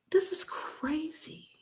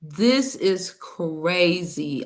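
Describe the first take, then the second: First: Slow disbelieving whisper; stunned whisper. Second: Very slow, drawn-out disbelief. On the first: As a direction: breathe it out, shocked. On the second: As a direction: stretch it out, stunned. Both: Real, not acted. Stunned aside after the clip.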